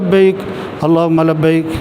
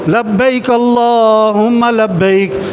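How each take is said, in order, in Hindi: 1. इसे कमज़ोर और ढीले अंदाज़ में कहा जाता है। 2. इसे ज़ोर से और पूरी ताक़त से पुकारा जाता है। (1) "ढीले ढीले" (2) "ये बुलंद आवाज़ से चीख के ज़ोर से पढ़ो।"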